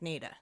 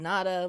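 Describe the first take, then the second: First: The first vowel is a long A. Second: The first vowel sounds like 'ah'. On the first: The speaker calls it right. "pronounced with a long A" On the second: The speaker calls it wrong. "like De Nada"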